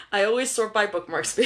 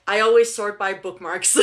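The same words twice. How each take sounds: First: Said in the usual way. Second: Laughing through the correction. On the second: Real, not acted.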